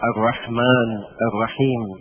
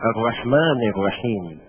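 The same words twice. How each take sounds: First: Word endings are said without their case vowels. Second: Word endings are said with their case vowels. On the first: The speaker calls it wrong. "لا نقول" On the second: The speaker calls it right. "ايضا لابد من الاعراب"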